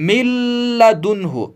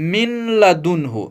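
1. n पूरी तरह दोहरे l में मिल जाता है। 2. n को l से पहले अलग से बोला जाता है। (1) "नून की आवाज को खत्म करेंगे" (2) "न कि"

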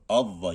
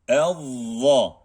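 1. İlk ünlü açık bir 'a' sesi. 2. İlk ünlü ince bir 'e' sesi. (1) "A demiyoruz. Avva gibi değil"

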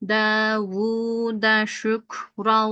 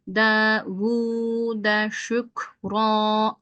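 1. Son kelime n sesiyle biter. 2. Son kelime uzun bir ünlüyle biter. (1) "Şimdi metti ivaz yapmadan okuyalım" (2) "Metti ivazlı okudum"

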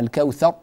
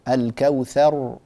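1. الراء الأخيرة تُقطع فجأة. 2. الراء الأخيرة تُمدّ طولها الكامل. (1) "فلا نقول ... هكذا لا يصلح" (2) "إنما نعطيها آه زمنها الكافي"

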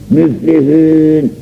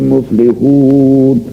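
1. Ünlüler ön yuvarlak ü sesleridir. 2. Ünlüler art yuvarlak u sesleridir.

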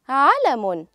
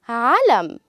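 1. تنتهي الكلمة بصوت نون مسموع. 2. تنتهي الكلمة بدون أي صوت نون. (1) "لفظنا حرف النون" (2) "لم نلفظ حرف النون"

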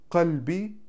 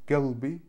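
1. Слово начинается со звука k. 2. Слово начинается со звука g. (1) "никто уже не говорит кальби" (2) "Галби на иракском, саудовском"

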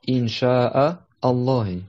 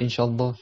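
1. Un coup de glotte vient avant 'Allah'. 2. Les mots s'enchaînent sans coup de glotte. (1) "il y a un hamza entre le nom Allah et le verbe" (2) "c'est pas inshallah"

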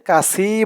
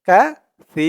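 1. মাঝের ব্যঞ্জনটি একটি কড়া, শিসের মতো s। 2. মাঝের ব্যঞ্জনটি একটি নরম th। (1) "এখানে কাসি বলা যাবে না" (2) "বলতে হবে কাসি, কারণ আরবিতে এখানে সা"

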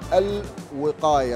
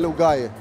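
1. تبدأ الكلمة بمقطع 'al' كامل. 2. تُحذف الحركة الأولى، فتبدأ بحرف 'l'. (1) "باللغه العربيه الفصحى نقول الوقايه" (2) "بس احنا نقولها لوقايه"

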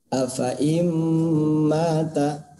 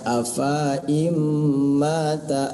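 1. Vokal setelah f dibaca pendek. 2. Vokal setelah f dibaca panjang. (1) "Harus dibaca afa'im mata" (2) "tidak boleh dibaca afa'im mata"

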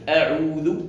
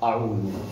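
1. الهمزة في «أعوذ» مرققة وخفيفة. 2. الهمزة في «أعوذ» مفخمة وثقيلة. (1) "الهمزة مرققة" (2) "وليس أعوذ"

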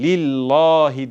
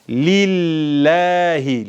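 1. L sesi kalın ve koyu. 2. L sesi ince ve hafif. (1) "lillahi diye okunmaz artık" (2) "lam harfi ince okunur"

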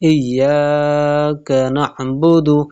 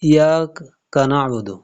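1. y ধ্বনিটি দীর্ঘ করে দ্বিত্ব করে পড়তে হয়। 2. y ধ্বনিটি ছোট এবং একক।

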